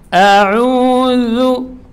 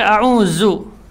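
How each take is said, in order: First: The middle consonant is clear, without a hiss. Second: The middle consonant is said with a hiss. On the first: I seek refuge. The speaker calls it right. "A'u ini harus jelas" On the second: I have lost it. The speaker calls it wrong. "Tidak boleh dibaca a'udzu, ya, ada desisnya"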